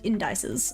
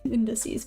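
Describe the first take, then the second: First: The ending is said like the word dice. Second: The ending is not said like dice. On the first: The speaker calls it wrong. "I used to pronounce it indices ... that's how you spell dice" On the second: The speaker calls it right. "not indices"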